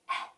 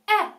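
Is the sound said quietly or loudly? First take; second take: quietly; loudly. First: The sound is said very quietly. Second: The sound is said very loudly.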